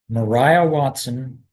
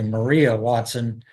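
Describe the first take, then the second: First: The name's middle vowel sounds like 'eye'. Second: The name's middle vowel sounds like 'ee'. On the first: This is how its bearer says her name. "I said Mariah Watson" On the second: This is the usual reading of the name. "as opposed to Maria Watson"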